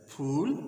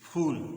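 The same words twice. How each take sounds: First: The word is exclaimed with strong feeling. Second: The word is said flatly, without strong feeling.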